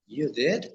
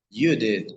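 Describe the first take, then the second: First: "You did?" with the pitch rising on "did?"; rising question. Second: "You did." said firmly with the voice falling at the end; falling statement. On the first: Teacher contrasting intonation, rising question. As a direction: ask "You did?" with surprise, tune up at the end. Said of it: "in the other one will be like". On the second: Teacher contrasting intonation, falling statement. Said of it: "I use an intonation". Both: Shown as a demonstration.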